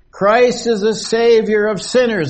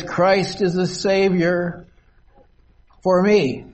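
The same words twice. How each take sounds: First: Said in the usual way. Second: Slow "Christ is the Savior", then lean on "for me"; slow down and make "for me" personal; slow reading, weight on "for me"; stress on for me. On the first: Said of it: "That's a general statement". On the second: Shown as a demonstration. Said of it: "But the next line says".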